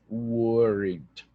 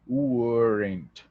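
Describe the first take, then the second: The two takes are said the same way.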